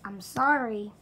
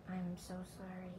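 First: Blurted loud fake apology, sorry dropping; a youtuber belting an apology at the camera. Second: Soft mock-contrite sorry; quiet apology. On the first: Youtuber to subscribers, loud hammed-up sorry. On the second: Youtuber to fans, soft fake-contrite apology. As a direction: murmur the apology softly, eyes down.

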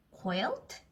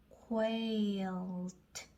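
First: Said in the usual way. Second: Quilt drawn out slowly, 쾌-이-어-트; sounding out. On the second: Shown as a demonstration. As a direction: slowly join every sound of quilt, ending on a separate T. (quilt를 한 소리씩 길게 이어서) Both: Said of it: "자, 이거는 쾌".

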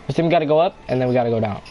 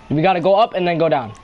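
First: Fast, lower hurried instruction; rushed repeat. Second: Said in the usual way. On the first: Shown as a demonstration. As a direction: rattle it off quickly. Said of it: "repeats the instruction faster". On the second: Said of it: "repeats the instruction".

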